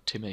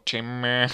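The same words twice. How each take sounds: First: Said in the usual way. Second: Timmy called out louder; "Timmy" sung out to get his attention; special Timmy call. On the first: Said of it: "you can't go". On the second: Shown as a demonstration. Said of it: "you have to say it like that".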